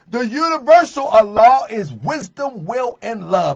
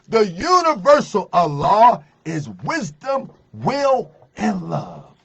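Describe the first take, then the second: First: It is said at a normal, quicker pace. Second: It is said slowly and deliberately.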